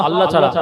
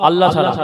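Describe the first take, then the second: Both takes have the same delivery.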